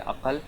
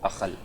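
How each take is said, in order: First: The middle consonant is a deep stop sound. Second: The middle consonant is a raspy fricative sound. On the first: This is how it is said in the north. "शुमाल में हम बोलेंगे" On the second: This is how it is said in the Deccan. "Deccan में बोलेंगे; काफ की आवाज़ को ... खा में तब्दील कर देते हैं"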